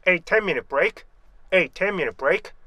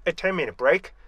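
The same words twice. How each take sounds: First: "A ten minute break" with full ay on A; measured reading, "A" pronounced ay; slow careful reading. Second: "A ten minute break" with A weakened to eh; faster reduced reading. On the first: Teacher modeling the slow original, careful full vowel. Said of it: "천천히 읽을 때는 정확한데". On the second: Teacher showing what speed does, weakened article. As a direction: run "A" quickly into "ten" as short eh. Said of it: "속도가 빨라지면은". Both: Shown as a demonstration.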